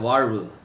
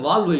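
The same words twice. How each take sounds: First: The middle consonant is said as a zh sound. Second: The middle consonant is said as a plain l. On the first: It means life. The speaker calls it right. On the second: It sounds like a valve that could leak. The speaker calls it wrong.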